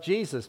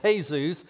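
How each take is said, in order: First: The name is said with English sounds. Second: The name is said with Spanish sounds. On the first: "in the English translation of Jesus"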